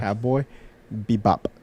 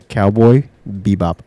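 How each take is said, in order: First: The final P is popped with a strong release. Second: The final P is soft and unreleased. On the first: "You should pop it" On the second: "I thought you were gonna like add pronunciation of the P again"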